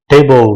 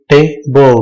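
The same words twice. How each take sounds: First: Said in the usual way. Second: टेबल as two separate beats, te and bol; split into syllables. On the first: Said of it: "दूसरी example लेते हैं". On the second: Shown as a demonstration. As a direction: break टेबल with a gap between syllables. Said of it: "पहला हो गया टे".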